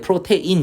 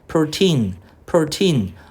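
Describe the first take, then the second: First: The word is said as pro-te-in, three syllables. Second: The word is said as pro-teen, two syllables. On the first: The speaker calls it wrong. "이거 발음할 때 프로테인 이렇게 발음하지 마" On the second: The speaker calls it right.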